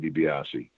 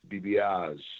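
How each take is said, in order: First: The name ends with a final vowel sound. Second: The name ends without a final vowel sound. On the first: This is the technically correct form. "technically, you would say DiBiase" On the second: This is how many people heard it said. "that's the way a lot of people would say DiBiase"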